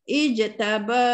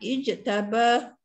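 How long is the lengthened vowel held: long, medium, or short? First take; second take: long; short. First: The lengthened vowel is held very long. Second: The lengthened vowel is held only briefly. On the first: "enam harakat" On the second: "dua harakat"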